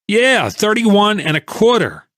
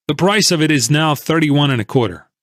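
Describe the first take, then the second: First: Much higher, slow sarcastic echo of thirty-one and a quarter; angry holder mocking the price he was told; bitter repeat. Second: Said in the usual way. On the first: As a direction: throw the figure back at him in disbelief. Angry man repeats the price back.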